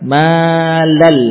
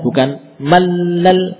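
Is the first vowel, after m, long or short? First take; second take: long; short. First: The vowel after m is held long. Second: The vowel after m is kept short. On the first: The speaker calls it right. "Tapi panjang mannya" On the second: The speaker calls it wrong.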